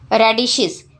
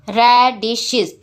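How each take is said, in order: First: Said in the usual way. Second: रेडिशेस slowly split as ra, di, shes; syllable by syllable. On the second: Shown as a demonstration. Teacher breaking the word for the class, रेडिशेस syllable by syllable. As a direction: give रेडिशेस three separate slow beats. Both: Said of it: "Break the given words into syllables".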